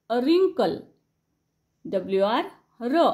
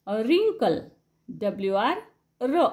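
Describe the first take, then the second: No difference in how they are said.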